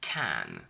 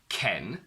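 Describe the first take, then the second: First: The vowel sounds like the one in cat. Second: The vowel sounds like the one in bed. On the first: The speaker calls it right. "we only say can" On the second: The speaker calls it wrong. "because that's Barbie's boyfriend"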